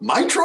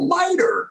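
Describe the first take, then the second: First: The word is said the European way. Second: The word is said the American way. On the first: This is how Europeans say it. "when you talk to Europeans, they call it Mitra" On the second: This is the speaker's own familiar way. "oh, miter, got it"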